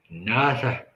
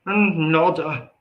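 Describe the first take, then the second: First: Said in the usual way. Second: "nada" drawn out slow and high in a country accent; country-accent Spanish. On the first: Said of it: "As they say in Espanol". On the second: Shown as a demonstration. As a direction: stretch "nada" like a twangy country speaker saying Spanish. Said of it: "that country accent".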